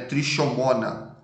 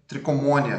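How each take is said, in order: First: The consonant after 'tri' is an sh sound. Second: The consonant after 'tri' is a hard k. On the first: The speaker calls it wrong. "trichomona é errado" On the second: The speaker calls it right. "como se fosse escrito só com C"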